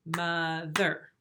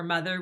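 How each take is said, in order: First: "mother" split slowly into two separate beats; clapped syllables. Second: Said in the usual way. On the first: Shown as a demonstration. Teacher clapping syllables for first graders, "mother" in two beats. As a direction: break "mother" in two, a beat on each half. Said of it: "sometimes we clap syllables". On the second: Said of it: "For mother, we would say".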